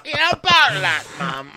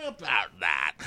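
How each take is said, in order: First: Very high, loud put-on voice; high-pitched hammed-up reply to Mum; mock child to mum. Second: Quietly put-on "about that"; understated reply. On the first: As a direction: squeak it out as somebody's kid. Acted reply to mum in skit. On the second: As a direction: drop the voice for an awkward aside. Same reply, dropped voice.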